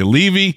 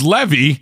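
First: The first vowel sounds like 'lee'. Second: The first vowel sounds like 'leh'. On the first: "the minute they say Levy, I feel like they're like, what up, Levy?" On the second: "if it's Levy, I have to hear, oh, like American Pie"

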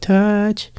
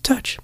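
First: The word is slack and lacks energy. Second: The word is short, punchy and sharp. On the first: The speaker calls it wrong. "not like touch" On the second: The speaker calls it right. "punchy and sharp"

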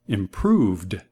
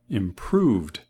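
Both takes have the same delivery.

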